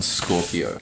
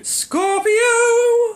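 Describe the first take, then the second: First: Low, sinister Bond villain. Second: High, loud theatrical villain cry; Bond villain voice. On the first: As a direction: purr it like a movie villain. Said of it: "You sound like a Bond villain". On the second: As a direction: shout it like a mad villain. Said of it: "You do". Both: Acted.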